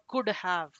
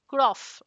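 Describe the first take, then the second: First: The second word is a full have, with h. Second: The second word sounds like off, without h. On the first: The speaker calls it right. "It is would have or should have or could have" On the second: The speaker calls it wrong. "it might sound like an off, off, could off. Okay. It's not that"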